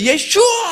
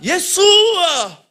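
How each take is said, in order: First: The middle consonant is an 'sh' sound. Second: The middle consonant is a plain 's' sound. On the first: This is how Israelis say it, which offends Arab listeners. The speaker calls it wrong. "잘못 발음해서 예슈아 이렇게 소리 지르면은" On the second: This is the form used in the Arab Middle East. The speaker calls it right. "여기는 예수어라고 해야 돼요"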